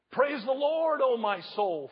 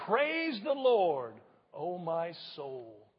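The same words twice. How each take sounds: First: Preacher lifting the praise line up; proclaiming. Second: Slow, drawn out so the church can follow; slow praise line said with the congregation; slow call and response. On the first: Real, not acted. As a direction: call it out in praise. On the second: Shown as a demonstration. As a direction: lead them through it slowly. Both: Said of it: "Would you say that with me?".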